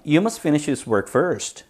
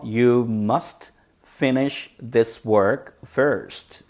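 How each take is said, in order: First: Said in the usual way. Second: Very slow, each word set apart. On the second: Shown as a demonstration. Teacher modelling the example for students, slow and separated. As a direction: dictate it slowly with space between words.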